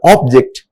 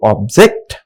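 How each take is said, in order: First: The stress is on the first syllable. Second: The stress is on the second syllable. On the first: It is used as a noun. "in first four sentences I highlighted only first syllable of the word" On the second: It is used as a verb. "a second syllable is stress on each uh, you know word"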